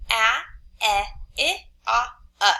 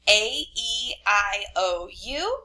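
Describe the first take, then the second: First: A, E, I, O, U as short sounds: ah as in cat, eh, ih, o as in hot, uh; short vowel sounds. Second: Vowels recited by letter name, rising on U. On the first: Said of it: "say your five vowel sounds". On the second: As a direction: say A, E, I, O, U as their long alphabet names. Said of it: "tell you the letter names first". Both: Shown as a demonstration.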